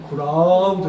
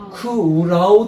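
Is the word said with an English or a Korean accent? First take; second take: English; Korean. First: It is said with an English-like sound. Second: It is said with plain Korean syllables. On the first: The speaker calls it right. "크라우드 느낌으로 크라우드 이렇게 해야 돼요" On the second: The speaker calls it wrong. "우리말로 그냥 크라우드 이라는 게 아니고"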